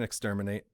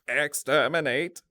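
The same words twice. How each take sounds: First: It is said in a normal speaking voice. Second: It is said in a harsh robotic voice.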